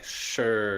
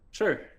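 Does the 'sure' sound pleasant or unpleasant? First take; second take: unpleasant; pleasant. First: It is said in an unpleasant, negative tone. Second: It is said in a pleasant, positive tone.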